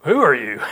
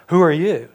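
First: Loud, incredulous question with pitch leaping on the first word; startled Boaz. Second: Loud, higher startled challenge; startled Boaz. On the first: Pastor imagines Boaz's intonation, hammed-up loud surprise. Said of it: "the intonation in his voice". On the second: Boaz wakes to a woman at his feet, startled and loud. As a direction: call it out as if woken in the dark. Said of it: "heard the intonation in his voice". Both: Acted.

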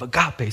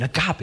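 First: Agape said ah-GAH-pee, falling. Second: Agape pronounced ah-GAH-pay; agape said as a word. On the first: Prayer group answers, agape falling. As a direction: close agape with a fall. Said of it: "God's love". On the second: Pastor at prayer meeting, Agape with a rise. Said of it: "I'm thinking". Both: Shown as a demonstration.

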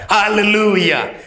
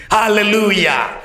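The two takes are said the same way.

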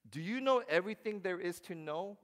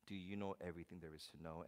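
First: Loud, high rising challenge; God booming. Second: Soft, quick, low aside; God quietly. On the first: God challenging Job, loud and high. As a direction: demand it from on high. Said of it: "but he's". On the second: God quietly pressing Job, soft and quick. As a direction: say it under your breath, pointedly. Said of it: "God is saying". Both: Retold or imitated.

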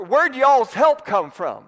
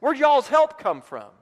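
First: A light Southern drawl, drawn out and louder; hammed-up Southern accent; Alabama twang. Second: Mock Alabama accent; Alabama twang. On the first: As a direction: ask it like a folksy Alabama preacher. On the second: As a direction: pitch it up like a country preacher. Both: Shown as a demonstration. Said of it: "That's not how they'd say it in Alabama".

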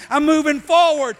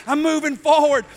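Both takes have the same delivery.

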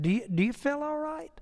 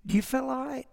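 First: A hint of Andy's higher, softer fake worry; quietly voiced teasing concern; Andy teasing Barney with a soft worried question; mock concern. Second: A hint of Andy's soft, higher worried question; lightly voiced quiet fake concern; Andy teasing Barney with a soft worried question; mock concern. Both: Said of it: "He just said it like that".

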